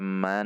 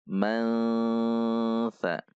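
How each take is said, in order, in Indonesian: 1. Kata ini diakhiri dengan bunyi n yang jelas. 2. Bunyi sengau menyatu dengan bunyi mirip s yang mengikuti. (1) "tidak juga dibaca man" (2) "namun dibaca mansa"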